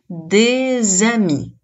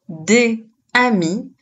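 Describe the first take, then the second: First: A z sound links the two words together. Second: The two words are said without a linking z sound. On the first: The speaker calls it right. "on utilise la liaison, donc pour bien prononcer, on va dire" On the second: The speaker calls it wrong. "On ne dit pas des amis, mais l'on utilise la liaison"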